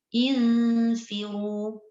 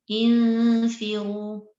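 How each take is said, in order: No difference in how they are said.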